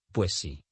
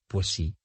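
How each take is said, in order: First: «pues sí» run together as one word; «pues sí» fused. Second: Said in the usual way. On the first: Shown as a demonstration. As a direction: merge the two S sounds in pues sí. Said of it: "suprimiendo fonemas". («pues sí» unido en una palabra) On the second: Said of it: "Unieron dos o más palabras".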